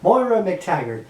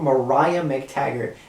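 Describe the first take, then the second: First: The first name sounds like 'Moira'. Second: The first name sounds like 'Mariah'. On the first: The speaker calls it right. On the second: The speaker calls it wrong.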